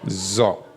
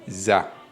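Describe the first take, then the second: First: The vowel sounds dark, like 'o'. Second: The vowel sounds bright, like 'a'. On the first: The speaker calls it right. "ça se lit Zo" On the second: The speaker calls it wrong. "Et non Za"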